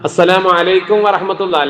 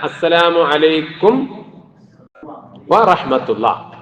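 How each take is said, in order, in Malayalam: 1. 'alaikum'-ലെ 'm' തിടുക്കത്തിൽ 'warahmatullah'-യിലേക്ക് ഒഴുകി പോകുന്നു. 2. 'warahmatullah'-ന് മുമ്പ് ചുണ്ടുകൾ 'm'-ൽ പൂർണ്ണമായി അടയുന്നു. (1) "ധൃതിയിൽ പോകുമ്പോ" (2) "മീമ് വ്യക്തമാവണം"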